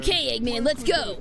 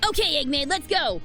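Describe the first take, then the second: First: The voice is pitched lower and deeper. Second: The voice is at its highest, least deep pitch.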